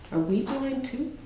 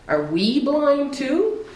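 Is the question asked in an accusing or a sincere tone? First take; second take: sincere; accusing. First: The question sounds sincere and genuinely wondering. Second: The question sounds accusing and challenging. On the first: The asker is beginning to take the claim to heart. "there were some Pharisees that were starting to hear it" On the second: The asker is dismissing the claim as an insult. "it was more of an accusatory thing"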